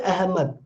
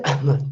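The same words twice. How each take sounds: First: "Ahmad" with a clear breathy h. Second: "Ahmad" with a catch in the throat in place of the h; glottal Ahmad. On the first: Teacher contrasting the Hindi "Ahmad" with the Arabic. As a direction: say "Ahmad" with a plain h, Hindi style. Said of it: "we speak the Hindi pronunciation". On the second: Teacher showing how Arabic speakers catch "Ahmad" in the throat. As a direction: say "Ahmad" with a glottal stop in the middle. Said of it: "So we call Ahmad". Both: Shown as a demonstration.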